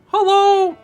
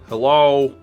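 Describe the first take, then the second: First: It is said in a higher voice. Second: It is said in a lower voice.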